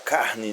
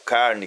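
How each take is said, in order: First: The R is a breathy, aspirated sound. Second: The R is a trilled, vibrating sound. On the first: This is how people from the Northeast say it. "o R mais aspirado" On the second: This is how people from the Southeast interior say it. "fala o R vibrante"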